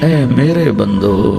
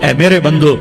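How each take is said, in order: First: It is said in a warm, tender tone. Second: It is said in a plain, flat tone. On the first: The speaker calls it right. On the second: The speaker calls it wrong.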